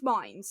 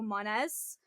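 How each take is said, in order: First: The name sounds like the word mines. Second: The name is said unlike the word mines. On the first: The speaker calls it right. "So like land mines kind of thing" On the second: The speaker calls it wrong. "they used to refuse to believe it was mine. So it was like"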